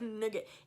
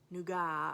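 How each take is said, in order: First: It is said like the English word nugget. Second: It is said with a French-sounding vowel and ending. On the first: "it looks like it should be nugget" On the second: "something more French sounding"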